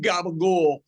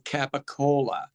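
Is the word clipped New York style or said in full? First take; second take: clipped; full. First: The word is clipped, with dropped final vowel. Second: The word is said in full with every syllable. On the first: "what what people claim to be Italian is not not Italian" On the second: "I'm doing it wrong also"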